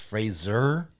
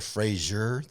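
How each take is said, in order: First: The middle consonant is a plain z sound. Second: The middle consonant is not a plain z. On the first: "I'm saying the Z sound like it's Fraser" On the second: "instead of Frasier, the T V show"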